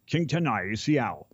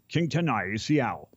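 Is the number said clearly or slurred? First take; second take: slurred; slurred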